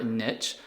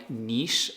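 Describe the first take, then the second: First: Niche said as "nitch"; niche rhyming with pitch; alternative pronunciation. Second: Niche said as "neesh"; niche rhyming with leash; alternative pronunciation. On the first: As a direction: say niche with a short i and tch. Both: Shown as a demonstration. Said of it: "however you wanna pronounce it".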